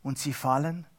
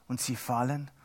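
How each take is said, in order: Both takes have the same delivery.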